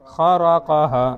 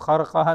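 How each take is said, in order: First: The vowel after the r is kept. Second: The vowel after the r is dropped. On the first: The speaker calls it right. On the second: The speaker calls it wrong.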